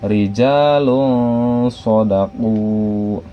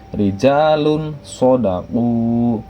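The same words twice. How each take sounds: First: The n sound is hidden and nasalized. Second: The n sound is pronounced clearly. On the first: "dibaca menjadi uh, samar" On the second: "yang seharusnya bacaan tulisannya itu adalah"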